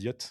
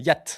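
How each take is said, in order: First: The vowel is an 'o' sound. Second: The vowel is an open 'a' sound. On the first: This is the pronunciation used in France. "Et en France, ils disent Yot" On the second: This is the Quebec pronunciation. "au Québec, ils disent Yat"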